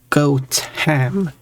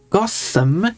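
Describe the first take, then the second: First: The t and h are pronounced separately. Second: The t and h form one th sound. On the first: The speaker calls it right. "The original pronunciation had T H, as in had Gotham, but lost the H" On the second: The speaker calls it wrong. "The pronunciation with the th sound, as in Gotham"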